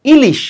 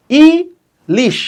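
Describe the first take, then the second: First: Said in the usual way. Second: "ilish" very slowly, long ই, pause, then লিশ; split into syllables. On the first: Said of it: "আমরা কিভাবে উচ্চারণ করি". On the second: Shown as a demonstration. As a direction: break "ilish" into two spaced beats. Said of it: "ইলিশ শব্দটাও কিন্তু দুই অক্ষরের". ("ইলিশ" ধীরে দুই ভাগে, ই... লিশ)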